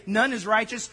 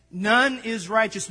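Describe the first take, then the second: First: Said in the usual way. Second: "None" slow and weighty; emphasis added. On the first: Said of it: "That's my emphasis added". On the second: Shown as a demonstration. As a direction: lean hard on "None", slowly. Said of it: "I'm gonna kinda add some emphasis".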